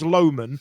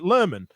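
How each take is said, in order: First: The name is said the plain, as-read way. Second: The name is said with a West Yorkshire pronunciation. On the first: This is how the name is read from spelling. "we read it as Lowman" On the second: This is how locals say the name. "the way in West Yorkshire they pronounce Lowman, they pronounce it Lerman"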